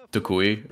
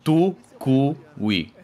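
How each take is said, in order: First: Said in the usual way. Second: Tukui broken slowly into tu, ku, wee; drawn-out syllables. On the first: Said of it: "his name is Tukui". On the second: Shown as a demonstration. Explaining the streamer's name, Tukui in slow separate syllables. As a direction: spell out Tukui by ear, one syllable at a time. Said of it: "his name is".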